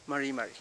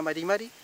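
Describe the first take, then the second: First: MARI MARI with untrilled r; Mapuche greeting r. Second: MARI MARI with Spanish tapped r; wrong tapped r. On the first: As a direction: answer MARI MARI in Mapuche pronunciation. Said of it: "usted me va a responder". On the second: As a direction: say MARI MARI with a light tap. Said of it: "No me diga". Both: Shown as a demonstration.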